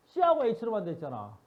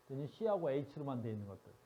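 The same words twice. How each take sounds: First: Loud, higher and slow, pressing on C하고; slow, loud stress on C하고 and H로만; emphatic slow. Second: Said in the usual way. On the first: Shown as a demonstration. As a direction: lean hard on C하고 with a falling tone. Emphasizing only C and H.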